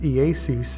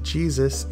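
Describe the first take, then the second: First: The name is pronounced the Greek way. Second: The name is pronounced the English way. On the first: "originally pronounced Iesus in the Greek" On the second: "commonly said as Jesus in modern English"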